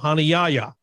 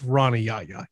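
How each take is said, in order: First: The name is said in its original, unadapted form. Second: The name is said in an Americanized form. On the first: This is how others have long called him. "how we have always called him" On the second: This is how he calls himself now. "He calls himself Ronnie Yaya. He has Americanized his name"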